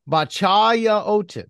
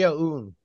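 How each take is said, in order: First: The name is said with a t sound. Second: The name is said without a t sound. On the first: The speaker calls it wrong. "I'm not sure if I'm pronouncing this thing right" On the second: The speaker calls it right. "So there's no T"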